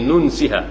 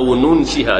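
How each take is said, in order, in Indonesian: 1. Huruf n diucapkan tanpa dengung sengau. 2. Huruf n ditahan dengan dengung sengau.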